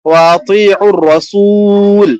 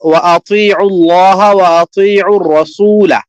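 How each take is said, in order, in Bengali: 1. শেষ শব্দটি ব্যঞ্জন l দিয়ে শেষ হয়। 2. শেষ শব্দটি শেষে 'a' স্বরধ্বনি দিয়ে শেষ হয়।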